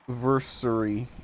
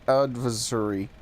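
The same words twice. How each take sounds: First: Adversary is said with a British pronunciation. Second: Adversary is said with a non-British pronunciation. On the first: The speaker calls it wrong. "how the Brits say" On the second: The speaker calls it right. "no, it's a uh"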